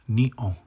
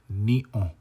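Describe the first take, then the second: Both takes have the same delivery.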